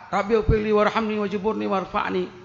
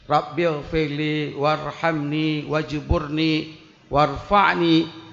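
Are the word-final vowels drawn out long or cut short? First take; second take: short; long. First: The final vowels of each word are cut short. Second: The final vowels of each word are lengthened. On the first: The words no longer address God as a plea. The speaker calls it wrong. "Pakon hana dah baca panjang" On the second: The prayer is recited properly as a plea to God. The speaker calls it right. "Nyan ni ni ujung mandum panjang dalam bacaan tajwid"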